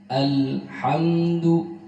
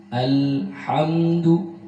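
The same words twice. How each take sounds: The two takes are said the same way.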